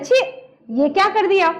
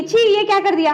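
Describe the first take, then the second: First: छी cut short, break, then ये क्या कर दिया; pause after छी. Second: छी run straight into ये क्या कर दिया; higher, all in one go from छी; direct, no pause. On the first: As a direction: let छी stand alone before going on. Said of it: "क्या कहते हैं?". (छी के बाद थोड़ा विराम) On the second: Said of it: "direct तो ऐसे नहीं कहेंगे". (छी के बाद बिना रुके) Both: Shown as a demonstration.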